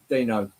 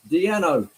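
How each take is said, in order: First: The name is said the usual English way. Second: The name is said the Dutch way.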